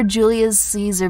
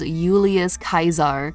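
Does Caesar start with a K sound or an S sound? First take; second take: S sound; K sound. First: Caesar begins with a soft s sound. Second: Caesar begins with a hard k sound. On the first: This is the usual modern English pronunciation. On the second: This is the reconstructed ancient pronunciation.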